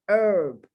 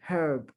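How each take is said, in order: First: The word starts with no H sound. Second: The word starts with an audible H sound. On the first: It means a plant used as a spice. "The H is not pronounced" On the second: It is a man's name. "the name of a person"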